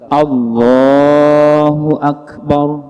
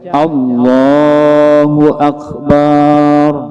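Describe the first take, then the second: First: The final syllable of Akbar is kept short. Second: The final syllable of Akbar is drawn out long. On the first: The speaker calls it right. "ujungnya itu pendek maka dibaca pendek" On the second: The speaker calls it wrong. "kada boleh dibaca"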